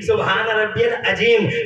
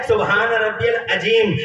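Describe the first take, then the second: Both takes have the same delivery.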